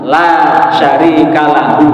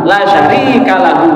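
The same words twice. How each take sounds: First: The vowel in 'la' is held long. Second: The vowel in 'la' is cut short. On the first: There is no partner for God. The speaker calls it right. "berarti la panjang pakai mat tobi'i" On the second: Truly God has a partner. The speaker calls it wrong. "kalau dibaca lanya pendek"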